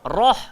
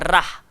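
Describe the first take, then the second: First: The r sound is thick and heavy. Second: The r sound is thin and light. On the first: The speaker calls it right. "ra kalau baris atas kena tafkhim" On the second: The speaker calls it wrong. "bukan rah"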